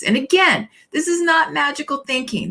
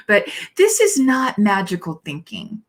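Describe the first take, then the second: First: This is not magical thinking, raised high with NOT stressed; emphatic repeat. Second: Said in the usual way. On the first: Real, not acted. Minister insisting to her congregation, stressing "not". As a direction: hit "not" hard, pitched up.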